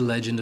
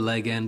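First: It is said as one ordinary word. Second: It is split into two words, leg and end.

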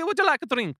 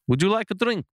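First: It is spoken in an Italian-sounding accent. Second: It is spoken in a Transylvanian-sounding accent. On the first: The speaker calls it right. "Yeah, that's it" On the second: The speaker calls it wrong. "That's more of a Transylvanian thing"

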